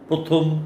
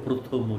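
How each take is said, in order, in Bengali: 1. শব্দটি একটি খালি ব্যঞ্জনে শেষ হয়। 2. শব্দটিতে একটি যোগ করা 'o' স্বরধ্বনি থাকে।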